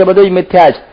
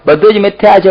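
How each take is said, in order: First: Said in the usual way. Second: Higher, firm first take; emphatic claim. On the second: Retold or imitated. Monk proclaiming to all, emphatic. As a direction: stress બધું, pitched high. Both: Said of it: "બ્રહ્મ જ્ઞાનની વાતો કરતા".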